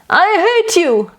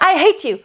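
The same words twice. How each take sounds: First: It is said gently, without force. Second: It is said forcefully, with quick breath.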